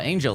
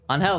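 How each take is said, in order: First: The middle consonant is a j sound. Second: The middle consonant is an h sound. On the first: "I think it's Angel" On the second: "A N H E L would be on Hell"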